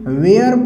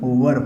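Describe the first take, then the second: First: The vowel sounds like 'air'. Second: The vowel sounds like 'er'. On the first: The speaker calls it wrong. "कुछ बच्चे वेयर पढ़ते हैं, वो भी गलत है" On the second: The speaker calls it right. "इसका मतलब वर होता है"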